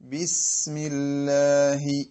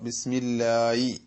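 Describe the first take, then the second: First: A breathy h sound comes before the final vowel. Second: A y-like glide comes before the final vowel. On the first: The speaker calls it right. "ആ ഒരു കാറ്റോടുകൂടെ ഹി ഹി ഹി ഹി എന്ന ശബ്ദത്തോടുകൂടി" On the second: The speaker calls it wrong. "ഇങ്ങനെ ഒരു ഈ എന്നുള്ള യാ പോലത്തെ ഒരു ശബ്ദം"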